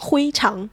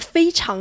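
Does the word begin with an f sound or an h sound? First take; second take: h sound; f sound. First: The word begins with an h sound. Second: The word begins with an f sound.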